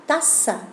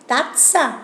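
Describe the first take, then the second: First: Taza said with a soft Spanish s sound. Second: Tazza said with a hard double ts sound; Italian tazza. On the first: (taza en español, con s suave) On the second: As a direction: Tazza in Italian, tts in the middle. (Tazza en italiano, con la doble z marcada) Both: Shown as a demonstration. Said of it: "la pronunciación es parecida".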